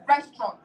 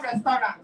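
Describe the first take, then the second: First: "restaurant" as REST-ront; two loud syllables for "restaurant"; correct pronunciation. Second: "restaurant" as res-TO-ran; three-syllable "restaurant" without final t; wrong pronunciation. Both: Shown as a demonstration. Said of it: "Not restaurant".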